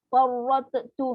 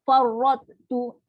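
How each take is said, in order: First: The t sound is fully released with a bounce. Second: The t sound is only partly formed, not released. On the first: The speaker calls it wrong. "tu salah" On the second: The speaker calls it right. "nampak gaya huruf ta tapi tak jadi"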